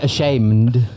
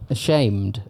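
First: The word is said with an N sound. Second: The word is said without an N sound.

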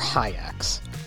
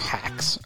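First: The name is said with two vowels, 'hi' then 'acks'. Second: The name is said with a short 'a' vowel. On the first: "or hi-acks" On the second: "Not hikes, or hacks"

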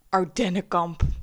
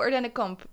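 First: It is said in a dark, ominous way. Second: It is said in a bright, cheerful way. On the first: The camp is something to dread. "Dat dus. Onheilspellend, eng, verschrikkelijk" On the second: The camp is something to look forward to. "oh, Ardennenkamp, heel leuk"

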